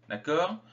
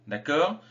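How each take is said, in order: The two takes are said the same way.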